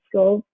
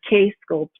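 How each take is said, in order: First: The K is silent, giving one syllable. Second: The K is pronounced, giving two syllables. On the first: The speaker calls it wrong. "you call it the scope" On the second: The speaker calls it right. "the K is not silent. So it's two syllables"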